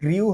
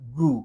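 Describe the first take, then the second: First: The vowel glides like 'yoo'. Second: The vowel is a plain 'oo'. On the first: The speaker calls it wrong. "এটাও গ্রিউ হবে না" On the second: The speaker calls it right. "এটা হবে গ্রু"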